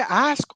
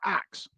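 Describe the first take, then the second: First: The word ends with an s then k sound. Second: The word ends with a k then s sound.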